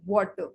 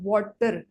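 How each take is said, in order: First: The final R is not pronounced at all. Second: The final R is pronounced strongly. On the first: "आर जो है उसको pronounce नहीं किया जाता है" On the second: "आर के ऊपर प्रेशर डालते हैं"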